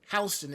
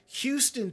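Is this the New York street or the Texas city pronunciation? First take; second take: New York street; Texas city. First: It is said the way the New York street is. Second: It is said the way the Texas city is. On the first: It names the street in New York. "we have a Houston here in New York, but it's Houston" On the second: It names the city in Texas. "you have Houston, Texas"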